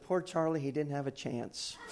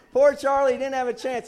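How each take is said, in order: First: Said in the usual way. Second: High, loud preacher's quote; loud retold exclamation. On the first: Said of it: "I love the way she said it". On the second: Preacher repeating the wife's remark to church, loud exclamation. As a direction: belt out the quoted line to the room.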